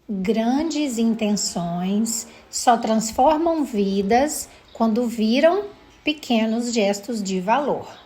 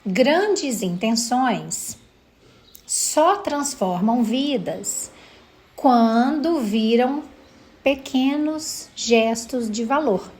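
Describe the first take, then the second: First: It is said at normal speed. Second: It is said slowly, with pauses.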